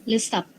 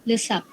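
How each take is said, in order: No difference in how they are said.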